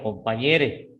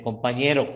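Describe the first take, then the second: First: "compañere" ending in e instead of o; inclusive ending. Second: Said in the usual way. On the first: Shown as a demonstration. Teacher citing inclusive language to students, "compañere" with final e. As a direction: end "compañere" on a clear e. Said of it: "En vez de compañero, compañere". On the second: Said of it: "En vez de compañero".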